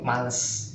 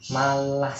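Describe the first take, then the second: First: The second vowel is pronounced as 'e'. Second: The second vowel is pronounced as 'a'. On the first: The speaker's first language is influencing the word. The speaker calls it wrong. "males pakai E, bukan pakai A" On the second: This is the standard Indonesian form. The speaker calls it right. "malas dalam bahasa Indonesia itu ejanya M A L A S"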